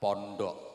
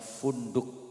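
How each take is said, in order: First: It is said with p and o sounds. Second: It is said with f and u sounds. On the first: "karena lesan Jawa ya diambil enaknya pondok" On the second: "Bacaannya funduk"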